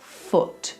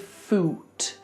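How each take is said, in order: First: The vowel is short, as in soot. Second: The vowel is long, as in suit. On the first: The speaker calls it right. "think about this word in the same way as you think about foot" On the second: The speaker calls it wrong. "we don't say foot"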